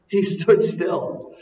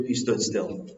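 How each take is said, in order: First: "He stood still." said slow and higher, "stood" stressed; slow emphatic repeat. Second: Said in the usual way. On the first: Shown as a demonstration. Preacher repeats to the congregation, slow and stressing "stood". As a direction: lean hard on "stood" and draw it out.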